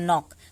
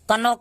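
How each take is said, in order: First: The word starts directly with an n sound. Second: The word starts with a k sound before n. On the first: The speaker calls it right. "नॉक पढ़ते हैं इसको" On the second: The speaker calls it wrong. "कनॉक नहीं पढ़ेंगे"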